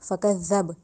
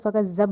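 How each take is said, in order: First: The z sound is soft, tongue between teeth. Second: The z sound is heavy, like a za. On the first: The speaker calls it right. "ज़ाल दांतों के दरमियान ज़बान ला के नरमी से अदा किया जाएगा" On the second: The speaker calls it wrong. "इसको फ़कज़्ज़ब नहीं कहना, ज़ा की अदायगी बिल्कुल भी नहीं देनी"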